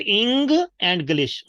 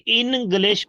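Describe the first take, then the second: First: ENGLISH as ING, pause, GLISH; correct pronunciation. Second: ENGLISH as IN-glish; wrong pronunciation. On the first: Teacher corrects English for class, ING then GLISH. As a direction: split ENGLISH after a ringing NG. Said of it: "E N sounds as ing". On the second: Teacher shows English wrongly, with IN. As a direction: say ENGLISH with a plain N. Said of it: "not in". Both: Shown as a demonstration.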